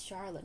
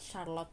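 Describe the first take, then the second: First: Charlotte with SH and a light ending; correct pronunciation. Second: Charlotte said the mistaken way, "Shar-lot"; wrong pronunciation. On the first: Vlogger teaching the name Charlotte, correct pronunciation. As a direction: model Charlotte as SHAR-lut. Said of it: "It's Charlotte". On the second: Vlogger showing how not to say Charlotte, mispronounced. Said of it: "not Charlotte". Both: Shown as a demonstration.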